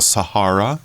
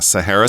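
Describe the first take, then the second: First: It is said in a British style. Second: It is said in a non-British style.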